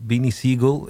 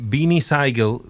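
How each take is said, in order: First: Siegel said as SEE-gul; first vowel of Siegel like "ee"; corrected Siegel. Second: Siegel said as SIGH-gul; first vowel of Siegel like "eye"; mispronounced Siegel. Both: Real, not acted.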